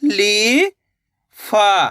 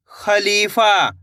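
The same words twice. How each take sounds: First: Drawn-out syllable by syllable; sounded out slowly. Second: Said in the usual way. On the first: Shown as a demonstration. Teacher sounding out a word for pupils, slowly drawn out. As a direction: stretch each sound for the pupils. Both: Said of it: "चलिए देखिए".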